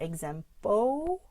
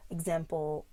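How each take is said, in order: First: Example ending in a long rising -po, no L; missing dark L. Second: Example ending in a dark L. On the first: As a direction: turn the end of example into a drawn-out "po". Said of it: "it's not example". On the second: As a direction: pull the tongue back for the final L of example. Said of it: "practicing the dark L". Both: Shown as a demonstration.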